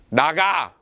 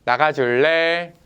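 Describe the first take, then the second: First: A blunt, short "나가." with no softness; curt. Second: Slow, gentle "나가줄래?" as a kind request; gently. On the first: Older brother curtly orders his little brother out. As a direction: snap "나가." flatly as a mild mock order. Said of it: "두 종류가 있어요". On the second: Older brother kindly asks his little brother to leave. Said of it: "다정하게". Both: Retold or imitated.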